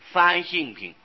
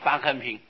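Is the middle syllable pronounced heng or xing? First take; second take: xing; heng. First: The middle syllable is pronounced xing. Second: The middle syllable is pronounced heng. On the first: The character means nature or character. "应当是方性品" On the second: This is a habitual reading picked up from others. "我就念成方恒品啊"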